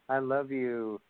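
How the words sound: It sounds heartfelt and sincere.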